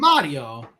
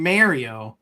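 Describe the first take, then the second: First: "Mario" as MAH-dee-oh, with a tapped r; Italian pronunciation. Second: "Mario" with first syllable like "Mary"; American pronunciation. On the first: Shown as a demonstration. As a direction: open AH and quick Italian tap in "Mario". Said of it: "Italian accent". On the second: Real, not acted. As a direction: say "Mario" as MAIR-ee-oh. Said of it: "you could say it either way".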